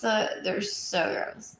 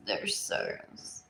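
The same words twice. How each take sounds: First: Said in the usual way. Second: Slow disgusted whisper. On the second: Real, not acted. Repeats gross line, then whispers.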